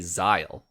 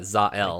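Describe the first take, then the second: First: The name is said as one syllable. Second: The name is split almost into two parts. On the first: This is the pronunciation the book's makers use. "they say Zyle" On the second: This is the pronunciation many people use. "like two almost two words"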